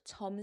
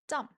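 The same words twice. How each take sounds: First: The first consonant is soft and relaxed. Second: The first consonant is strong and tense. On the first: The speaker calls it wrong. "Not the soft 점 sound" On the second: The speaker calls it right. "strong 점 sound"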